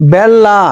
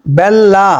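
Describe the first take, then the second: No difference in how they are said.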